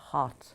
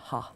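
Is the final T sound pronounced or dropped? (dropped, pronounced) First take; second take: pronounced; dropped. First: The final t is clearly pronounced. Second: The final t is dropped. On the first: "Instead of" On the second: "it would be ha"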